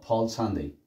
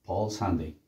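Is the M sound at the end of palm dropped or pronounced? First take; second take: dropped; dropped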